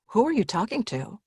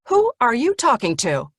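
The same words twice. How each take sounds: First: It sounds gentle and concerned, as to a confused parent. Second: It sounds stern and scolding, as to a child.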